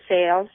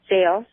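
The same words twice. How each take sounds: The two takes are said the same way.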